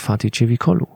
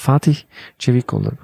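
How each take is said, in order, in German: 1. Der Name wird deutsch ausgesprochen. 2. Der Name wird übertrieben sorgfältig ausgesprochen. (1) "wir Deutsche, wir sagen" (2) "Und dann wollen sie es halt besonders richtig machen"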